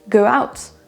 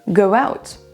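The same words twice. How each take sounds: The two takes are said the same way.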